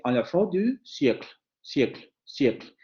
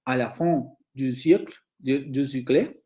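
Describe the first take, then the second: First: "siècle" ending on the consonants -kl; French demo, "siècle" cut off without a final vowel; final vowel omitted. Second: "siècle" with an audible final vowel; halting French demo, "siècle" ending on a voiced vowel; final vowel pronounced. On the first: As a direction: drop the last e of "siècle". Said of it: "tendría que decir simplemente". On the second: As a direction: sound the last e of "siècle", ending in -kle. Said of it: "en lugar de decir". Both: Shown as a demonstration.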